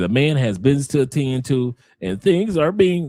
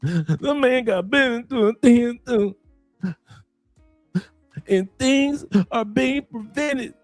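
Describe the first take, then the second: First: It is said in the speaker's own voice. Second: It is said imitating the listener's voice.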